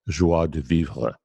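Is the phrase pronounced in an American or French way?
French. The phrase is pronounced the French way.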